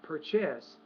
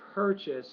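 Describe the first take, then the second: First: The stress is on the second syllable. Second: The stress is on the first syllable. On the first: The speaker calls it wrong. "not purchase" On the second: The speaker calls it right. "purchase is on the first syllable"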